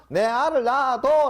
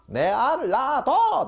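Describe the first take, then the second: First: High, loud mock Gyeongsang blurt; Gyeongsang dialect. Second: High, loud mock Gyeongsang shout, laughing; Gyeongsang dialect. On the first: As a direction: shout it like a blunt Gyeongsang suitor. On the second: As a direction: blurt it out like a Gyeongsang man proposing, high and loud. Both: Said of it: "경상도에서 뭐라 그런다고요?".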